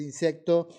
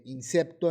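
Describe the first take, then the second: First: Said in the usual way. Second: "insecto" said as "insepto" with a P; mispronounced "insecto"; wrong pronunciation. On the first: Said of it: "en vez de insecto". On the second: Shown as a demonstration. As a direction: swap the C in "insecto" for a P. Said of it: "insecto en vez de insecto".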